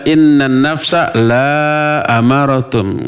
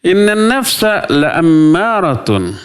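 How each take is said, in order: First: The vowel in 'la' is drawn out long. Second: The vowel in 'la' is kept short. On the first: The soul does not command evil. The speaker calls it wrong. "Nggak boleh dibaca" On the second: The soul certainly commands evil. The speaker calls it right. "Dibacanya la-nya pendek"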